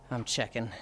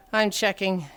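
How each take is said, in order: First: Barely voiced, very soft mutter; under the breath. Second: Said in the usual way. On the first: Real, not acted. Checking how much time is left, muttered. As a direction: breathe it out softly, almost whispered. Muttered, then said again aloud.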